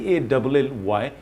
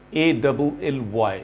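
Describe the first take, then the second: No difference in how they are said.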